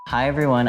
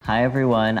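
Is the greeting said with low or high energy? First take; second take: high; low. First: It is said with high, lively energy. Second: It is said with low, flat energy.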